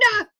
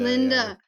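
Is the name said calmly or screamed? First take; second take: screamed; calmly. First: The name is screamed loudly. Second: The name is said at a calm, normal volume.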